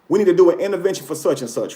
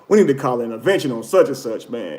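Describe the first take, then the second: First: It sounds sincere and caring. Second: It sounds gossipy and mocking.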